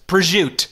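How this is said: It is said in a New Jersey accent. "you go to Jersey and it's just"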